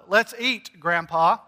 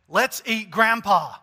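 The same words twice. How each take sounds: First: Let's eat, pause, then a rising Grandpa, calling him to the table; a clear break after Let's eat, Grandpa lifted like a call; pause before Grandpa. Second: Let's eat Grandpa said in one falling breath, no break; no comma, Let's eat flowing straight into a falling Grandpa; run together, no pause. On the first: Pastor calls Grandpa to dinner with a clear pause. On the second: Pastor joking that Grandpa is the meal, no pause. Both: Shown as a demonstration. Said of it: "According to where you put the emphasis".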